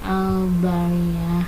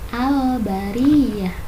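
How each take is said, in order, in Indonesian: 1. Bunyi l pada 'al' tidak dibaca jelas. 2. Bunyi l pada 'al' dibaca jelas. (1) "tidak al-bariyah" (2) "dibacanya al-bariyah"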